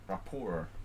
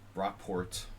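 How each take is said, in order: First: The name is pronounced the French way. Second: The name is pronounced the English way. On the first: "rapport is French" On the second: "if you pronounce it like Rockport, you know, it sounds kind of English"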